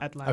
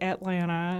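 First: It is said with a neutral, non-Southern accent. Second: It is said with a Southern accent.

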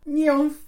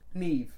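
First: The name is given a misread pronunciation. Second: The name is given its accepted pronunciation. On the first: Someone unfamiliar guessed it from reading. The speaker calls it wrong. "I read that. And I saw" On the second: This is how the name is really said. The speaker calls it right. "how that word is actually pronounced?"

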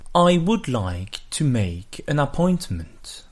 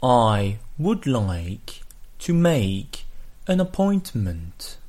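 First: The sentence is spoken at a normal, faster pace. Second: The sentence is spoken at a slower pace. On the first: "On les prononce une première fois en anglais" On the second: "on les répète ensuite plus lentement"

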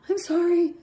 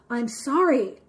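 First: It sounds sheepish and scared. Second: It sounds sarcastic and insincere.

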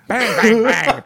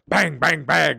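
First: It is said louder. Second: It is said fairly softly.

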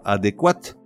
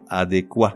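First: The final T sound is pronounced. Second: The final T sound is silent. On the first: It sounds like the feminine form. The speaker calls it wrong. "on ne prononce pas adéquate, comme s'il était au féminin" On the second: It is the masculine form. The speaker calls it right. "Mais le T final est muet"

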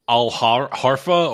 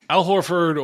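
First: The name is pronounced in a garbled, altered way. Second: The name is pronounced in the usual, clear way. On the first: The speaker calls it wrong. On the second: The speaker calls it right.

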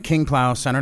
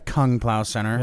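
First: The first word is said with an 'ee'-like vowel. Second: The first word is said with an 'uh'-like vowel. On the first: The speaker calls it right. "They let us do it in the King Plow Center" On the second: The speaker calls it wrong. "not the Kung Plow Center"

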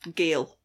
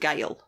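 First: The vowel sounds like 'ay'. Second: The vowel sounds like 'eye'. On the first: The speaker calls it wrong. "Which my car seems to think is Gale" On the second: The speaker calls it right. "a shopping centre called The Gyle"

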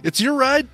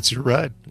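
First: It is said in a warm, friendly tone. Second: It is said in a blunt, curt tone. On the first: The speaker reassures the passenger it is fine. The speaker calls it right. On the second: The speaker is indifferent to the apology. The speaker calls it wrong.

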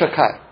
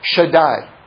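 First: The middle consonant is a 'k' sound. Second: The middle consonant is a 'd' sound. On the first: This is a substitute form used in everyday speech. "We'll say Shakai" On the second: This is the name's real pronunciation. "that's what I just said was the real pronunciation"

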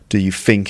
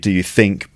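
First: Think begins with an f sound. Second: Think begins with a soft th sound. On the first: This marks a slang dialect. "is a feature of this kind of slang" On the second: This is the standard pronunciation. "So it should be"

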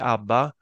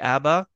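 First: The name is said with a Swedish pronunciation. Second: The name is said with a British pronunciation. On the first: "in Sweden we say ABBA" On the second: "in the UK you say ABBA"

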